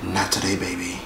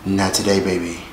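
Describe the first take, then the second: First: Very soft, low sassy brush-off; [name] voice again. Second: Soft, low, sassy [name]; a light sassy [name] dismissal. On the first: Vlogger repeating [name] line, much softer. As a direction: hush it like [name], breathy sass. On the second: Vlogger doing [name] to dismiss fans, soft and sassy. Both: Retold or imitated. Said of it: "In my [name] voice".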